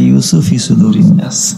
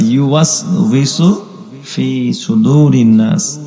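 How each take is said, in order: First: The first word is clipped to sound like yusuf. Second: The first word is said in full as yuwaswisu. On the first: The speaker calls it wrong. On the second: The speaker calls it right.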